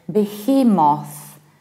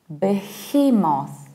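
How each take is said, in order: First: The final syllable is said fully and clearly. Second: The same.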